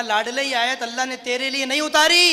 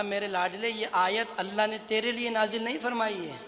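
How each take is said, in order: First: Emphatic proclamation. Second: Soft, hushed reassurance; gentle consoling. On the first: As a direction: build to a loud, rising finish. Same consolation repeated for the crowd. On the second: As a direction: comfort a dear follower quietly. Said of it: "अपने साहबी को तसल्ली दी". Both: Retold or imitated.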